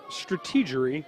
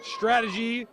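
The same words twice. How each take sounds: First: Strategery with an extra syllable, stra-TEE-ger-y; strategery Bush-ism. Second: Said in the usual way. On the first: Shown as a demonstration. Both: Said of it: "Another Will, uh, Ferrell reference".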